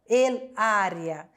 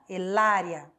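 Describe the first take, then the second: First: The two words are said separately, not linked. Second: The two words are linked together as one. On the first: The speaker calls it wrong. "eu não vou falar el área" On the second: The speaker calls it right. "Eu vou falar tudo junto"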